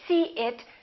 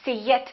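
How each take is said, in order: First: The two words are separate with no Y sound. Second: A strong, exaggerated Y sound links the words. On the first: "So we don't say see it" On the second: "Don't make that Y too strong. Don't exaggerate it"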